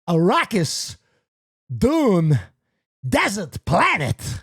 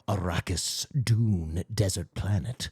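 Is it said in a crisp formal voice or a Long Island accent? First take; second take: Long Island; crisp formal. First: It is said in a Long Island-style accent. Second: It is said with grave, clean, articulate diction. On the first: The emperor sounds oddly like an ordinary local guy. The speaker calls it wrong. "sound like a guy from Long Island" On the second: This is how an emperor is expected to sound. The speaker calls it right. "You expect him to have gravitas and sound very uh, articulate and clean with his diction"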